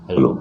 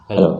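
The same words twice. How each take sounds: First: The voice is processed to sound big and deep. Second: The voice sounds natural with no effect. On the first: "Ang laki ng boses" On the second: "normal na"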